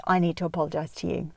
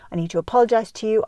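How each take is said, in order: First: Said in the usual way. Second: Higher, louder and fast, leaning on "apologize"; earnest apology. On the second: Shown as a demonstration. Parent apologizing to teen daughter, stressing "apologize". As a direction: press "apologize" hard, quick and raised. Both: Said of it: "I'm gonna read out the apology strategy".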